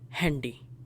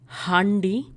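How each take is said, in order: First: The a is an English-style vowel sound. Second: The a is a German open a sound. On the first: The speaker calls it right. "but rather Handy ... borrowed from English" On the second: The speaker calls it wrong. "this is not Handy"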